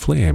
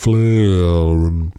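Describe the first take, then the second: First: The word is pronounced in an ordinary way. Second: The word is pronounced in an odd, unnatural way. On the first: "it answered by first pronouncing it a different way" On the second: "pronouncing it in a way that you wouldn't expect any AI voice or a human voice could really say"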